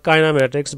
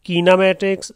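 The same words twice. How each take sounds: First: The word is said in a British accent. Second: The word is said in an American accent. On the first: "जो British accents" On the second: "ये American"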